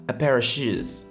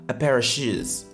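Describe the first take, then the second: First: The word 'of' is reduced and linked into one block. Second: The word 'of' is reduced and linked into one block.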